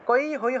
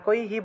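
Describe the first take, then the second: First: The final syllable is pronounced 'hai'. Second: The final syllable is pronounced 'hi'. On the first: The speaker calls it wrong. "কই হই হবে না" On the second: The speaker calls it right. "কৈহি বলা হয়ে থাকে"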